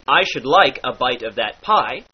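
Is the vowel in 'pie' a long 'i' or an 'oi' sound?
long i. Pie and bite have a long i vowel.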